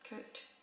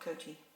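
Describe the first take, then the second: First: The word ends on the t sound. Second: An extra vowel follows the final t sound. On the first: The speaker calls it right. "you don't pronounce the E" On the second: The speaker calls it wrong. "Not coaty"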